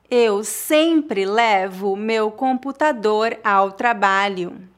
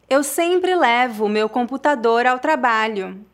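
First: The sentence is spoken slowly and carefully. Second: The sentence is spoken at a natural speed. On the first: "uma vez mais devagar" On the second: "outra vez mais naturalmente"

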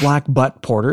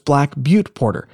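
First: The second word sounds like 'butt'. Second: The second word sounds like 'byoot'. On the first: The speaker calls it wrong. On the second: The speaker calls it right.

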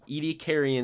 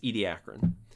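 First: The word has an extra 'ee' sound before the ending. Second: The word has no extra 'ee' sound before the ending. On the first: This is a less common variant of the name. "They add another I with the second A" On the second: This is the usual form of the name. "usually it's Ediacaran"

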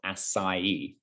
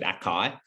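First: The c is said like an s. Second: The c is said like a k. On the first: This is how it is meant to be said. The speaker calls it right. "it's pronounced acai. And that's kind of how it's meant to be pronounced" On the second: This is how most people say it. The speaker calls it wrong. "everyone calls it acai"

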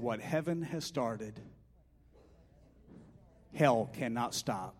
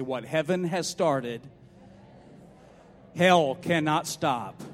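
First: It is said in a plain, ordinary way. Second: It is said forcefully, with commanding authority.

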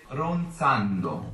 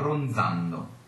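First: The z is an unvoiced ts sound. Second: The z is a voiced dz sound. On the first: This is the standard Italian pronunciation. "so in high Italian that would be an unvoiced ronzando, TS" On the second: This is the pronunciation habitually heard in singing. "So you've always heard sung ronzando with a voiced DZ"

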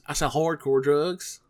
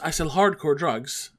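First: It is said with a Texas drawl. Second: It is said without a Texas drawl. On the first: The speaker calls it right. "It didn't have that drugs" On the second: The speaker calls it wrong. "none of them had that Texas accent"

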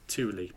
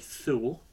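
First: It is said differently from how it looks. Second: It is said the way it looks written. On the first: The speaker calls it right. "But it's Thule" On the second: The speaker calls it wrong. "I see it written down, I want to say Thule"

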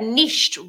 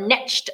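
First: It is said in the speaker's non-American accent. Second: It is said the American way.

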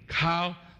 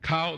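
First: The vowel is long with a level pitch. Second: The vowel is short with a level pitch. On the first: It means to kneel down. "the long level" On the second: It means the knee. "the short level"

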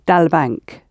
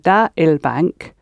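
First: The two words are run together into one. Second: The two words are said separately, not run together. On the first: The speaker calls it right. "you've run it together" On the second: The speaker calls it wrong. "instead of saying da il bank"

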